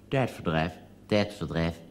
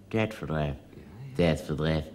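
Both takes have the same delivery.

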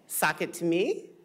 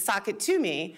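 First: The voice rises at the end like a question. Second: The voice falls at the end like a statement. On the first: It is asked as a question. "asked it almost as a question" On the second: It is the usual catchphrase. "the show's catchphrase"

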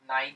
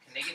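First: The word is said with silent k and gh. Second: The word is said with k and g sounded. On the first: The speaker calls it wrong. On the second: The speaker calls it right.

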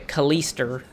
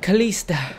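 First: The name ends with an R sound. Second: The name ends in a plain vowel.

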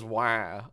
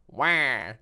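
First: It is said in a plain voice. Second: It is said in a Wario impression.

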